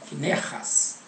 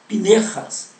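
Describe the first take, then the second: First: The name begins with an F sound. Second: The name begins with a P sound. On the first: The speaker calls it wrong. "Aí nós trocamos o F" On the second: The speaker calls it right. "qual é a pronúncia correta no hebraico"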